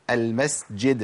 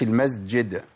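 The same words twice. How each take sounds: First: المسجد slowly as "al-masjid"; breath running through the sīn of المسجد; clear s. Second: المسجد as "al-mazjid"; the slip to avoid, voiced z before j in المسجد; wrong z. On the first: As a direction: hiss the s before the j in المسجد. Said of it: "ما قولش المسجد". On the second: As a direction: buzz the s of المسجد into a z. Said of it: "ما قولش". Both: Shown as a demonstration.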